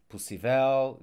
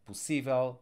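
First: Possível wrongly stressed as possi-VEL, VEL louder; possível as if it had no accent mark, end-stressed VEL; stress on last syllable. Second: Possível stressed on SÍ, light ending; possível said pos-SÍ-vel; stress on accented syllable. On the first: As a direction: punch the final VEL in possível. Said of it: "So without accent mark, I would pronounce this". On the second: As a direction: put the weight on SÍ in possível. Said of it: "but with the accent mark". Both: Shown as a demonstration.

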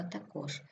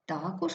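First: ТаКОЖ, ending stressed; stress on last syllable. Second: ТАкож, first syllable stressed. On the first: Teacher showing double stress, stress on КОЖ. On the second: Teacher showing double stress, stress on ТА. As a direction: hit ТА in також. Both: Shown as a demonstration. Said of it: "слова із подвійним наголосом".

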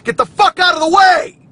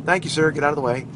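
First: Very loud, high-pitched yell; put-on road-rage shout. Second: Said in the usual way. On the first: Driver putting on a show for listeners, mock-furious shout. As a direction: scream it at the car ahead, hammed up. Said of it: "that's me putting on a little show". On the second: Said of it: "I don't really have road rage".

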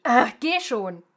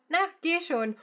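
First: Louder, irritated push; angry. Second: Sweet coaxing. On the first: Teacher shows an angry shove to go. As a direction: snap it at them impatiently. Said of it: "or really angrily". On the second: Teacher shows a sweet nudge to go. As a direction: coax them sweetly to go. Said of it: "said in a sweet tone". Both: Shown as a demonstration.

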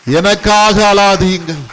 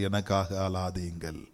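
First: Loud, slow, high proclamation; proclaimed quote. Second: Low, hushed voicing of Jesus; soft quoted words. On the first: Preacher to congregation, repeating Jesus's words loudly and slowly. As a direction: ring it out to the whole church. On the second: Jesus to the daughters of Jerusalem, hushed and tender. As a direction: say it gently, almost to yourself. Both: Shown as a demonstration. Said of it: "ஒரு கரங்களை தட்டுவோமா?".

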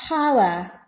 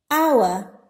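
First: "hour" with the H sounded; wrong pronunciation. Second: "hour" with the H silent; correct pronunciation. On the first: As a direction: begin "hour" with an audible H, how-uh. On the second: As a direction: begin "hour" on the vowel, like "our". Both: Shown as a demonstration. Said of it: "It is not hour".

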